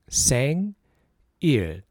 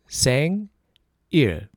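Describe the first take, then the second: Both takes have the same delivery.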